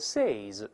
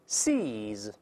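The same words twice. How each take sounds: First: The vowel is a short i sound. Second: The vowel is a long ee sound. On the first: The speaker calls it wrong. "注意不要读成seize" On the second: The speaker calls it right. "它是发长音一的声音啊"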